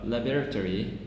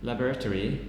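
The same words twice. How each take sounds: Both takes have the same delivery.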